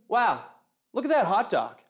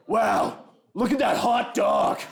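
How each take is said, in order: First: Lightly impressed barbecue fan; understated wow of a food lover. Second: Slow, high shout of creepy over-admiration; hammed-up, drawn-out lusty wow; lustful admirer. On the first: Acted. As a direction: admire it with mild, everyday enthusiasm. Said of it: "guy who really likes barbecue". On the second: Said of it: "guy who's super into bestiality".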